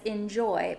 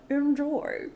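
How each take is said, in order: First: Said in the usual way. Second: Higher, mock bow delivery; bowing Enjoy with a mouthful. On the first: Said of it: "and he says". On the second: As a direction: imitate a waiter with a bow. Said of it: "but he kinda bows".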